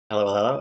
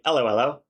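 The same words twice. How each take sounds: First: Said in the usual way. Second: Put-on a light British accent on hello, hello; mock British greeting, hello, hello with a rise. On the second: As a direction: say hello, hello like a British bobby, rising at the end. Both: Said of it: "As the Brits say".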